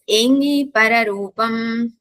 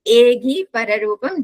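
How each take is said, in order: First: The first word has a nasal 'ng' sound. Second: The first word has a plain 'g' sound. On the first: This is how one's own tradition and the north say it. "This this we pronounce it as Nakara" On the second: This is how another regional tradition says it. "In Kailash, they pronounce it as Ga"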